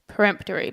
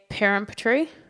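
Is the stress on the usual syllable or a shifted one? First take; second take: usual; shifted. First: The stress falls on the usual syllable. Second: The stress falls on a different syllable.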